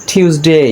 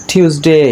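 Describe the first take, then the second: Both takes have the same delivery.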